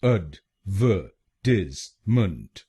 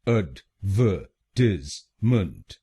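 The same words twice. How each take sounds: Both takes have the same delivery.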